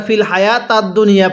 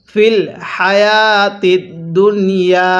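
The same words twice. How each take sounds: First: হায়াতাদ with a instead of i; the mistaken হায়াতাদ; wrong vowel. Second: হায়াতিদ said with a clear i under ta; correct vowel. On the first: Teacher imitates students' wrong হায়াতাদ. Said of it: "জেরের জায়গায় জবর পড়েন". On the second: Teacher recites correct হায়াতিদ for the class. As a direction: keep the zer: হায়াতিদ. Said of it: "জের থাকা সত্ত্বেও". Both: Shown as a demonstration.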